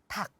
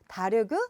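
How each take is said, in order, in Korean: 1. 이 단어는 하나의 닫힌 음절로 발음돼요. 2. 이 단어는 세 음절로 나뉘어 발음돼요.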